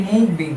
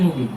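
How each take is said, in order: First: Mubin split into two separate syllables. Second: Said in the usual way. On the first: Shown as a demonstration. Teacher showing his name has two syllables, Mubin said in two beats. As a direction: break Mubin in two, a beat between the halves. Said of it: "কয়বার উচ্চারণ করতে পারতেছি". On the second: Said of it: "Mubin আমরা কয়বার উচ্চারণ করতে পারতেছি".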